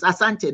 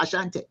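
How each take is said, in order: First: "Asante" with a clean s and no H; correct pronunciation. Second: "Ashanti" with sh in place of s; the mistaken "Ashanti", H added after the s; wrong pronunciation. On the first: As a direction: correct them with "Asante", plain s sound. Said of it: "there's no H in A". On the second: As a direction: say "Ashanti" with a sh sound. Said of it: "There's no H". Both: Shown as a demonstration.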